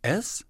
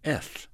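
First: The S is made with a clear hiss. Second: The S is made with a lisp. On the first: The speaker calls it right. "that's correct" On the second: The speaker calls it wrong. "you're saying S"

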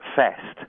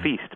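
First: The vowel is a short 'e' sound. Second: The vowel is a long 'ee' sound. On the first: This is how it sounded in Shakespeare's day. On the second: This is the modern pronunciation.

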